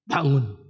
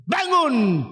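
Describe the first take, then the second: First: Said in the usual way. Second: High, drawn-out order to rise; commanding call. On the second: Retold or imitated. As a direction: call the dead youth up with authority. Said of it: "aku perintahkan engkau". (seruan tinggi penuh wibawa)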